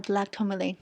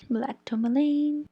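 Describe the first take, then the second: First: Said in the usual way. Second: TOURMALINE stretched slowly, pitched up; "tourmaline" drawn long on a high held note; drawn-out repeat. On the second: Real, not acted. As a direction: repeat it higher, dragging out the end of "tourmaline". Repeats crystal name, stretching it out.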